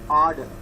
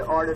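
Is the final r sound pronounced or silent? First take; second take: silent; pronounced. First: The final r sound is silent. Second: The final r sound is pronounced. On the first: The speaker calls it right. "It is order" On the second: The speaker calls it wrong. "You should not say order"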